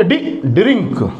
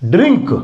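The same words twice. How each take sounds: First: Teacher sounding out ड्रिंक letter by letter; slow sounding out. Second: Said in the usual way. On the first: Shown as a demonstration. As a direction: pull apart डी and then say ड्रिंक slowly. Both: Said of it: "डी को डी पढ़ेंगे".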